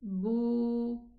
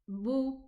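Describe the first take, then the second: First: The vowel is held twice as long. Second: The vowel is short. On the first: "extend the pronunciation of the dhamma letter to an extra time" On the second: "instead of saying bu"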